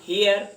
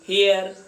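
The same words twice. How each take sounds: First: The word is said in a British accent. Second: The word is said in an American accent. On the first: "अंग्रेज लोग इसका उच्चारण" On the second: "American लोग"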